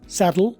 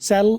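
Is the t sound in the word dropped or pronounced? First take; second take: pronounced; dropped. First: The t sound is fully pronounced. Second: The t sound is dropped, like sell.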